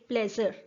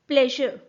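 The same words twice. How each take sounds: First: The middle consonant is a 'z' sound. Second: The middle consonant is a 'zh' sound. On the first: This is how the word was probably said in Middle English. The speaker calls it wrong. "अगर उसकी जगह ज sound होता" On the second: This is how the word is said today. The speaker calls it right. "Right modern English"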